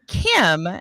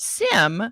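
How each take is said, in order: First: The word begins with a hard K sound. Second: The word begins with a soft S sound. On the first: "and then I kept hearing Kim" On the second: "I thought the C was a soft C, so I kept saying it as SIM"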